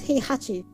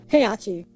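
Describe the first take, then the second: First: The second H sound is pronounced. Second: The second H sound is dropped. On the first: The speaker calls it right. "Yes. It's Heihachi" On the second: The speaker calls it wrong. "don't pronounce the second H. They don't. They say Heihachi"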